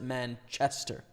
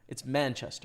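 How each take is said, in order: First: The stress falls on the second part, chester. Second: The stress falls on the first part, man. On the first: The speaker calls it wrong. "don't pronounce it" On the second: The speaker calls it right. "The emphasis is on the first the first part of the word"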